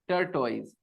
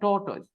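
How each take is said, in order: First: The first syllable sounds like 'tur'. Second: The first syllable sounds like 'taw'. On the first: It is the form many learners grew up hearing. The speaker calls it wrong. "हम लोग को बचपन से क्या सुनने की आदत है" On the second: It is the form that should be used. The speaker calls it right. "लेकिन बोलना करेक्ट है टोटोइज"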